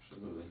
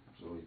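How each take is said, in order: Both takes have the same delivery.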